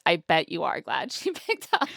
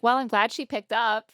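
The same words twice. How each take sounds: First: Knowing emphasis on "are", laugh after "glad"; stress on "are". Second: Higher, lightly voiced producer; imitated producer. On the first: Retold or imitated. Answering the producer back, knowingly stressing "are". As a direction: lean on "are", then break into a laugh. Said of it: "And I'm like". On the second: Producer reacting to the answered call, lightly imitated. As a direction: lightly put on a producer's relief. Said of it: "And the producer's like".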